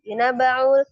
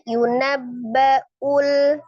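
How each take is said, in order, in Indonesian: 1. Hamzah sebelum akhiran terdengar samar. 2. Hamzah sebelum akhiran terdengar jelas. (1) "jangan yunabba'ul" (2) "diperjelas hamzahnya"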